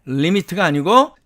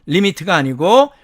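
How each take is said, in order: No difference in how they are said.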